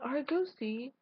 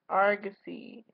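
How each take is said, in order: First: The first syllable lacks a pirate-like 'arr' sound. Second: The first syllable has a pirate-like 'arr' sound. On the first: The speaker calls it wrong. "Not Argosy" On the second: The speaker calls it right. "do like a pirate, Argosy"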